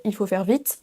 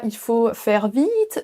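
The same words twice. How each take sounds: First: Said in the usual way. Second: "vite" drawn out slowly as veeet; long English I. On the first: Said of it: "Vous ne direz pas". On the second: Shown as a demonstration. Teacher showing what French never does, long I in "vite". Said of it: "Le son I long".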